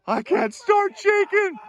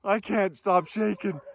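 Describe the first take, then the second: First: Much higher, loud giddy yell; excited shout. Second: Louder, adrenaline-filled gasp; trembling thrill after the kill; shaking with excitement. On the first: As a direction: blurt it out in wild excitement. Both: Real, not acted.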